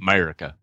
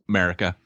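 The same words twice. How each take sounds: First: It is said with a Southern twang. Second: It is said in a plain, neutral accent. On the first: The speaker calls it right. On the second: The speaker calls it wrong.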